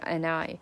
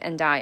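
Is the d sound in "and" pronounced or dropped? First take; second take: dropped; pronounced. First: The d of and is dropped. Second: The d of and is pronounced. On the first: The speaker calls it right. "而是and I" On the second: The speaker calls it wrong. "不是and I"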